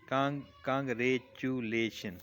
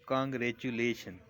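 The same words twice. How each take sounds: First: congratulation slowly in pieces, restarting on Kong; slow teacherly split of congratulation; broken into syllables. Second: Said in the usual way. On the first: Shown as a demonstration. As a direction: separate Kong, रे, चु, लेशन with small gaps. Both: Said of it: "word को तोड़ के देखते हैं".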